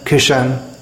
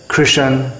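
First: It drops the r, with a vowel before n. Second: It has kr, with a vowel inserted before n.

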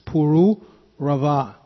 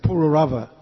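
First: The vowels in the name are said long. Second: The vowels in the name are said short. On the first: The speaker calls it right. "there are some diacritics there, so it's Puru Rava" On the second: The speaker calls it wrong. "we grew up in this country saying Puru Rava, but that's not the right pronunciation"

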